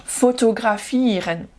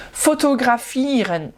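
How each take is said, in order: Both takes have the same delivery.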